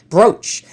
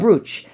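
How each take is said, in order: First: The vowel sounds like the one in boat. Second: The vowel sounds like the one in boot. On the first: The speaker calls it wrong. "Why would you pronounce it brooch?" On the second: The speaker calls it right. "because it's spelled B R O O C H"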